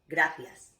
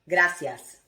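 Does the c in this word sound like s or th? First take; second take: th; s. First: The c sounds like the th in thin. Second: The c sounds like the s in see. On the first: This is how it is said in Spain. "the phonetic sound in Spain of theta" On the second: This is how it is said in Latin America. "with the phonetic sound of S"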